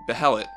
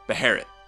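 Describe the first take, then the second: First: The middle consonant is an L sound. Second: The middle consonant is an R sound. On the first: This is the common English media pronunciation. The speaker calls it wrong. "pronounced Behelit. Personally, I think this pronunciation, while incorrect, flows more smoothly" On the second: This follows the correct transliteration. The speaker calls it right. "the correct English transliteration is this, and it's pronounced, as you guessed, Beherit"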